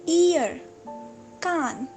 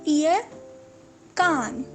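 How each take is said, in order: The two takes are said the same way.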